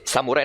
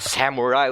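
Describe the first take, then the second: First: It is pronounced with a Japanese accent. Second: It is pronounced with an English accent. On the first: The speaker calls it right. "they say with Japanese accents" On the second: The speaker calls it wrong. "not samurai or something like that"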